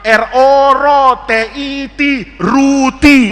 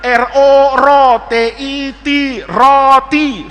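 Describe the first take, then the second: First: Slow spelling ending in ruti, U replacing O; misread vowel. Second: Said in the usual way. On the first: Acted. Pupil beside Faiz reads aloud, U vowel in ruti. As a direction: spell it out, then turn the O to U in ruti. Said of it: "Coba sampingnya". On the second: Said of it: "Faiz tuh".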